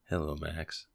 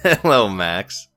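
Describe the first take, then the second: First: It is said in a put-on NPR-host voice. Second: It is said in his normal voice.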